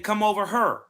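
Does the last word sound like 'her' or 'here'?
her. The last word sounds like 'her'. This is how people further south say it. "I go a little bit south. They say"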